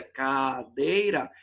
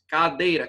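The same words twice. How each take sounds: First: Cadeira spaced out as ca-dei-ra; teacher counting three beats in cadeira; slow syllable split. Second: Said in the usual way. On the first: Shown as a demonstration. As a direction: spell cadeira out syllable by syllable, slowly. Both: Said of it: "três sílabas".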